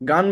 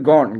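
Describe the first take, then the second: First: The word is said with a 'gun' vowel. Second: The word is said with a 'gon' vowel. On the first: The speaker calls it wrong. "গান বললেন না কেউ আবার?" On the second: The speaker calls it right. "এটা কিন্তু গন।"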